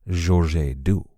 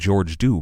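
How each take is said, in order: First: The name is said with a French pronunciation. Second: The name is said with an English pronunciation. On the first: This is the name in French court records. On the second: This is the name in English court records.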